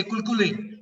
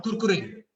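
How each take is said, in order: First: Kulkule, both Rs of Kurkure turned into L; toddler mispronunciation. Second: Said in the usual way. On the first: Retold or imitated. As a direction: imitate a toddler saying Kulkule with Ls for Rs. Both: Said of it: "They cannot pronounce the sound of R".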